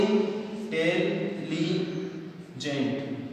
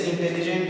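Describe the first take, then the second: First: intelligent broken into four drawn-out syllables. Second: Said in the usual way. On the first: Shown as a demonstration. Teacher counting the syllables for students, syllable by syllable. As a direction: say intelligent very slowly, pausing between in, tel, li and gent. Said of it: "तो इसके कितने हो गए".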